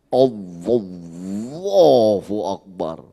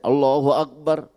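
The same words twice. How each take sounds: First: It is said grandly, with ornate melodic flourish. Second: It is said plainly, without any embellishment. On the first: Showing off to people listening behind. "tas takbirnya udah kayak Imam Sudes" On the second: Praying privately with no one to impress. "Kalau di rumah takbir biasa aja saya"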